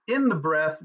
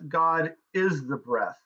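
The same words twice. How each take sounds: First: "in" lifted, then falling away; stress on IN. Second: "is" stressed and drawn out slowly. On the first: Teacher contrasting where God is, stress on "in". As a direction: lean on the word "in". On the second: Teacher equating God with breath, stress on "is". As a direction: land firmly on the word "is". Contrast: in versus is. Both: Shown as a demonstration.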